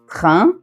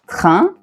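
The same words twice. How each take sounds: The two takes are said the same way.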